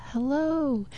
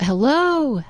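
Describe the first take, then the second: First: The same hello much softer, like it comes back from far off; faint echo. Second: Called out high into the woods; calling out. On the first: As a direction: let it fade back as an echo. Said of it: "He heard an echo". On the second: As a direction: call hello toward the trees. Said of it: "he called out". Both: Retold or imitated.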